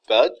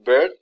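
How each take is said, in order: First: The vowel is an uh sound. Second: The vowel is an er sound. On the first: This is the Vincentian Creole way. "the O rep- replaces ear" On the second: This is the standard English way. "instead of saying bird"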